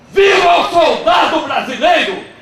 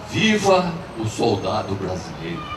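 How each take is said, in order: First: It is shouted as loudly as possible. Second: It is said at normal loudness.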